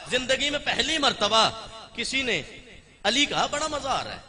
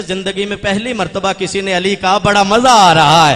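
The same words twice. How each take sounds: First: Laughing. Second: Smiling. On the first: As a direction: chuckle out "बड़ा मजा आ रहा है" gently. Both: Acted. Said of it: "Abbas मुस्कुरा के कहते".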